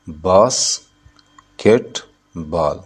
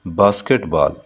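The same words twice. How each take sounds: First: "basketball" very slowly as बास, केट, बॉल with long pauses; syllable by syllable. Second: Said in the usual way. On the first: Shown as a demonstration. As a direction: count out three separate beats in "basketball". ("Basketball" को बास... केट... बॉल, रुक-रुक कर) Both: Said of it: "basketball में कितने syllable है?".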